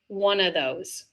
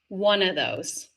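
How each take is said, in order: First: The V sound in 'of' is left out. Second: The same.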